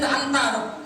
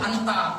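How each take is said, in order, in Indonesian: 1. Diucapkan dengan gaya bacaan Al-Quran. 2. Diucapkan dengan gaya bahasa Arab sehari-hari yang biasa. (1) "ketika Nabi mendengar dari Jibril"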